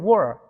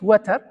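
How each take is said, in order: First: The middle t sound is dropped or softened. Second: The middle t sound is clearly pronounced. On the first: This is how native speakers say it. "but they say war" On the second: This is how learners know the word. "What we know is water"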